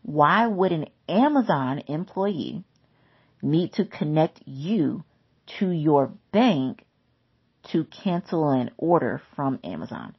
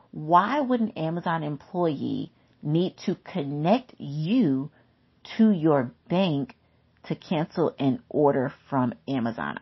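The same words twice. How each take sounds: First: Slow and deliberate, each phrase set apart; slower repeat. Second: Said in the usual way. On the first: Shown as a demonstration. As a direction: spell it out slowly so it sinks in. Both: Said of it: "I'm gonna say that again".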